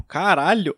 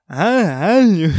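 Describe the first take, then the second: First: Said in the usual way. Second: Slow, loud, strained croak of a swollen throat. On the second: Retold or imitated. Recalling the morning mirror shock, slow strained croak. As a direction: drag it out like your throat is blocked. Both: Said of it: "Aí minha voz tava fanha".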